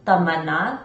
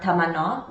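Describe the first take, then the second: First: The name is said with a Hindi pronunciation. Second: The name is said with a Farsi pronunciation. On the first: "That's how you say it in Hindi" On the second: "which is how you say it in Farsi or Dari"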